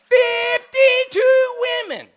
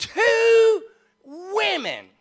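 First: Very high, slow, full-voiced shout; louder unbroken yell to force a laugh; insistent punchline shout. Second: High, loud, drawn-out announcement; slow, booming punchline with pitch way up; dramatic reveal. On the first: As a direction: shout it word by word, stretched out. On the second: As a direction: stretch each word like a showman's reveal. Big reveal for the congregation. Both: Real, not acted.

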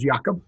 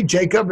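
First: Jacob said the Dutch way, with a Y sound; Dutch-style Jacob, opening on a soft Y; Dutch pronunciation. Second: Said in the usual way. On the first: Shown as a demonstration. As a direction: say Jacob as "YAH-kob". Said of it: "how you say Jacob in Dutch". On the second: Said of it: "is that how you say".

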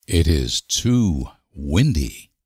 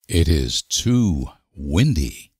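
No difference in how they are said.

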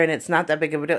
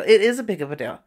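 First: Said in the usual way. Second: "It is a big of a deal" with "is" hit firmly; emphatic rebuttal. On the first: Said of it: "it's not, you're just going to learn". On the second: Real, not acted. Answering the skeptics about beauty college, firm emphasis on "is". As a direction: insist on "is".

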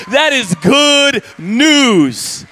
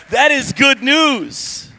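First: Slow, loud, drawn-out shout; shouted proclamation. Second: Said in the usual way. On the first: Acted. Pastor proclaiming to the congregation, slow loud shout. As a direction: ring it out to the rafters.

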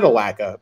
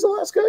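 First: "Alaska" misread as "a-LACK-a"; Alaska without the S. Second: "Alaska" corrected to "a-LASS-ka". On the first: Retold or imitated. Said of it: "I think he means Alaska". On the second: Shown as a demonstration. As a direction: say "Alaska" with the S sounded before the K. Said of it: "he means Alaska".

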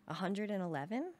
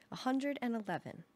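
First: "A hundred and eleven?" rising on "eleven"; disbelieving question. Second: "A hundred and eleven" said as a plain falling fact; flat statement. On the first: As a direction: echo it back in disbelief, pitch up at the end. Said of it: "my mother asked". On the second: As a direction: state "hundred" proudly and let it fall. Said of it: "Borgel said". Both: A narrator's reading.

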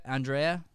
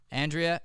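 First: "Andrea" as an-DRAY-uh, questioning; alternative name pronunciation. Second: "Andrea" as AN-dree-uh, questioning; name pronunciation variant. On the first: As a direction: try "Andrea" with stressed "dray", rising. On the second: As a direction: try "Andrea" with "dree" in the middle, rising. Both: Shown as a demonstration. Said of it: "Is it Andrea or Andrea".

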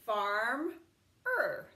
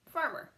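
First: Farm-er split into two parts; farm-er, slow with a break; sounded out. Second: Said in the usual way. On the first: Shown as a demonstration. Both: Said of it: "we could say farm-er".

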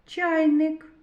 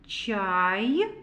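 First: Said in the usual way. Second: "Чайник" split into "чай... ник", first syllable stretched; read by syllables. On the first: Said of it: "Зробимо звуковий аналіз слова". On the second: Shown as a demonstration. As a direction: sound out "Чайник" slowly, pausing after "чай". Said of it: "Давайте прочитаємо". («Чайник» по складах: чай — ник)

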